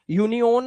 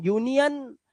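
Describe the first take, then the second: First: यूनियन ending in a long "yone"; wrong ending. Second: यूनियन high, ending in "yun"; correct ending. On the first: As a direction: show the mistake, यूनियन as "yoo-ni-ohn". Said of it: "यूनियन नहीं". (यूनियन को "यूनियोन" बोलना) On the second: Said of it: "आ की आवाज". (यूनियन के अंत में अ) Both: Shown as a demonstration.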